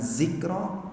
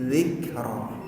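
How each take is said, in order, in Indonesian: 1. Kata ini dimulai dengan bunyi z yang berdengung. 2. Kata ini dimulai dengan bunyi th yang lembut. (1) "Bukan zikra ... Bukan pakai rongga gigi seri" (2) "tapi zikra ... tapi ujung gigi seri"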